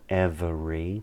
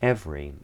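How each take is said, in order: First: The second E is pronounced as a vowel. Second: The second E is dropped entirely. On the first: The speaker calls it wrong. "that second E isn't pronounced, it's not every" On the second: The speaker calls it right. "it's every"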